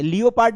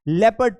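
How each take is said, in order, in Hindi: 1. पहला अक्षर 'lee-oh' की तरह बोला जाता है। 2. पहला अक्षर 'leh' की तरह बोला जाता है। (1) "लियोपार्ड नहीं पढ़ना है" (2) "लेपर्ड पढ़ना है"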